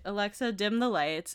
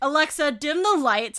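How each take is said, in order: First: It is said in a neutral tone. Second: It is said in a mean tone.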